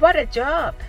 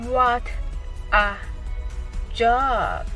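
First: The phrase is said quickly. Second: The phrase is said slowly. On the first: "次に早く言ってみましょう。" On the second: "はじめはゆっくりです。"

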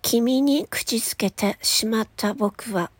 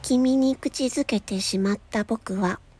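First: The consonants burst out hard and sharp. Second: The consonants are soft, rounded and smooth.

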